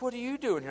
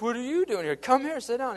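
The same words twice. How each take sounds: First: High, loud startled what are you doing here; surprised greeting. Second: High, loud, playful echo of the question; excited echo. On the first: Youth pastor spotting him across the restaurant, high and surprised. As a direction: throw it out in happy surprise. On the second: Narrator echoing the youth pastor's surprise back at him, high and loud. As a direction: bounce it right back and wave him over. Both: Retold or imitated.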